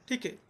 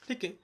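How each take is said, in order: No difference in how they are said.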